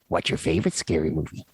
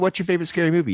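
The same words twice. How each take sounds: First: It is said in a creepy, put-on voice. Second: It is said in an ordinary, casual voice. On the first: The speaker calls it right. "you kind of have to ask it in the question in that voice too" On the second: The speaker calls it wrong. "can't just yeah. say"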